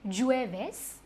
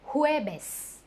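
First: It begins with an English J sound. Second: It begins with an H-like sound. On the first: The speaker calls it wrong. "J-U-E-V-E-S is not Jueves" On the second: The speaker calls it right. "we pronounce alphabet J as H"

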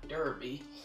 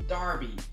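First: The first syllable sounds like 'der'. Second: The first syllable sounds like 'dar'. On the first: The speaker calls it wrong. "not Derby" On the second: The speaker calls it right. "you guys told me it's Dar, so it's Derby"

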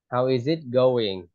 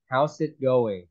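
First: The word 'is' is said in full, linked. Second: The word 'is' is contracted to an s sound. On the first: "Còn nếu mà how is it going thì em đọc nối ra không đọc tắt nữa" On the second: "một là em đọc là s thì how's it going?"

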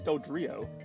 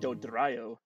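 First: The R is a plain English R. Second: The R is rolled. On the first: "ours is Do-drio" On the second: "I actually kind of rolled my R okay there"

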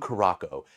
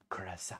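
First: The word is said as 'Caraco'. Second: The word is said as 'Curaçao'. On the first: The speaker calls it wrong. "mispronouncing stuff" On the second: The speaker calls it right. "it's pronounced Curaçao"

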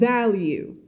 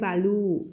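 First: The second syllable has a clear 'you' sound. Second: The second syllable lacks the 'you' sound. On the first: The speaker calls it right. "มันจะมีหรือ you อยู่ข้างในลึกด้วยนะ" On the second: The speaker calls it wrong. "ไม่ใช่"

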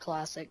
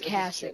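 First: The name is said with an L sound. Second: The name is said without an L sound. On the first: The speaker calls it wrong. "not Classic" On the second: The speaker calls it right. "It's Cassic"

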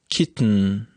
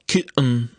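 First: The t is released through the nose. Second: The t is replaced by a glottal stop. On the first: "I have a nasal plosion, that is, I release te through my nose" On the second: "if we want to use glottal stop in the pronunciation of this word, we should say kitten"

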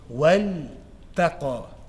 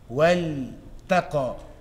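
The two takes are said the same way.

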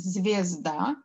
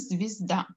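First: The first vowel sounds like 'e'. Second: The first vowel sounds like 'i'. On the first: This is how the word is written. "Мы пишем «звезда»" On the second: This is how the word is actually spoken. "а говорим «звезда». Мы слышим звук «и»"

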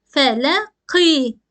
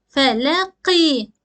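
The two takes are said the same way.

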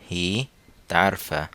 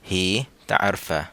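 The two takes are said the same way.

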